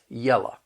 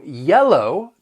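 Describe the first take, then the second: First: The word ends with an 'uh' sound. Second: The word ends with an 'oh' sound. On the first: "you're going to hear people say la" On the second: "instead of pronouncing it low"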